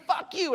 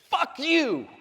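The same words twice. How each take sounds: First: High-pitched quick imitation of an insult; mock angry yell. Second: Higher-pitched hostile shout; angry yell. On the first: Retelling the driver's curse to the audience, mock angry. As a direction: toss off the driver's curse in a higher voice. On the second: Retold or imitated. Driver cursing dad out of passenger window, angry yell. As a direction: hurl it like a driver from a car window.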